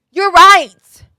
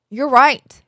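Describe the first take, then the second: First: Loud, high, hammed-up concession; exaggerated agreement. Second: Milder, playful admission of fault; toned-down agreement. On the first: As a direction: cry out that the scolding is deserved. Exaggerated concession to doctor's scolding. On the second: Acted. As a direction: concede it, only slightly raised. Same concession, toned down.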